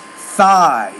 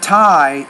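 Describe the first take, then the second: First: The word begins with a TH sound. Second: The word begins with a plain T sound. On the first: The speaker calls it right. "put the tongue between your teeth" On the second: The speaker calls it wrong. "No, it's not tie"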